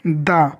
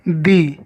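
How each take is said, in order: First: The vowel is a short uh sound. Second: The vowel is a long ee sound. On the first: The next word starts with a consonant sound. "वहाँ दा को दा बोलेंगे" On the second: The next word starts with a vowel sound. "वहाँ दा को दी बोलेंगे"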